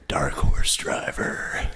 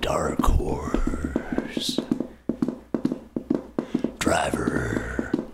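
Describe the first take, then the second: First: It is said at a quicker pace. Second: It is said at a slower pace.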